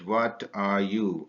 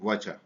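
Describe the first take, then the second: First: Each word is said separately and in full. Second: The words blend into one short contracted form.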